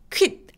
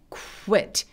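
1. 한 번에 딱 시작해요. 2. 짧게 미끄러지는 'oo' 소리로 시작해요. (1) "아니고" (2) "시동을 거는 거예요"

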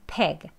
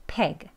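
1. 이 모음은 이완된 소리로 'eh'에 가깝습니다. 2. 이 모음은 이완된 소리로 'eh'에 가깝습니다.

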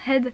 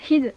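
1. La voyelle est un son e ouvert bref. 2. La voyelle remonte vers un son ee. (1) "pour dire la tête, head" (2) "ils disent head"

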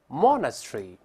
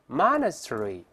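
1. 带英式口音，结尾音节弱化。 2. 带美式口音，结尾音节读得完整。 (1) "英式发音前面发o，后面发tree" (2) "美式发音呢，前面那个o 变成r 这个声音"

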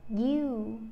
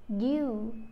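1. Âm y ở đầu nhẹ nhàng nhưng rõ ràng. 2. Âm y ở đầu nhẹ nhàng nhưng rõ ràng.

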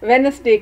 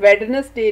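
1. Wednesday शब्द में d की ध्वनि साइलेंट है। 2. Wednesday शब्द में d की ध्वनि बोली जाती है। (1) "बल्कि वेनसडे कहते हैं, तो डी इज साइलेंट" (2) "हम वेडनसडे नहीं कहते"

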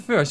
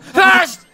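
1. Het wordt rustig en zacht gezegd. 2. Het wordt luid en krachtig gezegd. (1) "een hele rustige, smoothe first" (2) "in plaats van"

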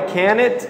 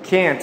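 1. Um som de vogal extra vem antes do t final. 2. O n vai direto para o t final. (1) "O que eu ouvi foi can it. Não é can it" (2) "O N vai direto para o T"

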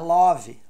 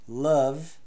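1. A vogal é uma vogal plena e aberta. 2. A vogal é um som de schwa curto e neutro. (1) "não é love" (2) "tem que ter o som do"

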